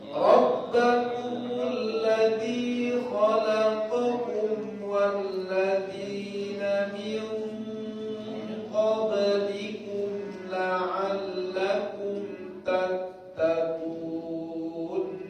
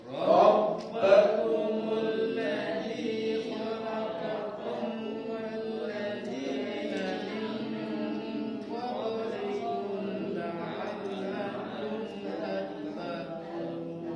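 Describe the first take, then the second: Both takes have the same delivery.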